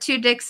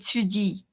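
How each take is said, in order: First: The name is pronounced the English way. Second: The name is pronounced the French way. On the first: "two dicks is fine too" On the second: "if you're pronouncing it um, en français"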